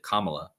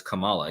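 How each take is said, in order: First: Kamala stressed up front, KAH-muh-luh; first-syllable pronunciation of Kamala. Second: Kamala with the middle syllable stressed, kuh-MAH-luh; wrestler's name pronunciation. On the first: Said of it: "You didn't pronounce it". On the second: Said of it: "the way you pronounced his name". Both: Shown as a demonstration.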